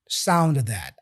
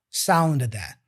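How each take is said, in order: The two takes are said the same way.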